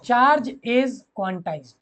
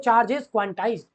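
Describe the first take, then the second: First: Repeated slowly, word by word; slow dictation. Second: Each word stretched for note-taking; slow dictation. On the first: Teacher to students, repeating the dictation slowly. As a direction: say it again slowly for notes. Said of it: "repeating dictation". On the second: Teacher to students, dictating slowly. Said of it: "dictating property". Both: Shown as a demonstration.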